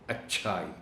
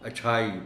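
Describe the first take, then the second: First: The middle consonant is doubled and held longer. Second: The middle consonant is short, not doubled. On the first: The speaker calls it right. "इसको शद के साथ पढ़ेंगे" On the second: The speaker calls it wrong. "शद के बगैर लोग इसको अच्छाई पढ़ जाते हैं, जो गलत है"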